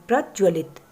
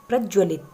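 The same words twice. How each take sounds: Both takes have the same delivery.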